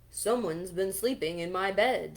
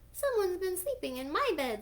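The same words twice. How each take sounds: First: The voice is big and deep. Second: The voice is tiny and squeaky. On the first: "in his great big voice" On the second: "squealed Baby Bear in his wee little voice"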